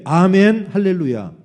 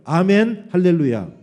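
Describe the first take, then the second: First: Very loud, rousing 'amen, hallelujah'; full-voiced call-and-response shout; louder congregational call. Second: Loud 'amen, hallelujah' for repeating; loud call-and-response lead; leading congregational response. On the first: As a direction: belt out the amen for everyone to follow. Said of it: "좀 더 크게". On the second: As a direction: call it out firmly for them to echo. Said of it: "여러분 따라해보세요". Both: Shown as a demonstration.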